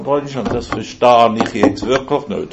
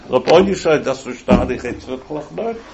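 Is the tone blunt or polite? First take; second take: blunt; polite. First: The tone is blunt and complaining. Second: The tone is gentle and very polite.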